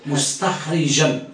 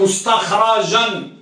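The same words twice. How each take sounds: First: مستخرجا said slowly as mustakhrija, with an i on the ra and a small laugh; kasra on the ra. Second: مستخرجا said slowly as mustakhraja, with a clear a on the ra; fatha on the ra. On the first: Teacher shows students the other reading, mustakhrija with kasra, half laughing. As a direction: slowly say مستخرجا as mus-takh-RI-ja. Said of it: "كسر الراء". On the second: Teacher slowly shows students the mustakhraja reading with fatha. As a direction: stretch out مستخرجا with an open a: mus-takh-RA-ja. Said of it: "فتح الراء". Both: Shown as a demonstration.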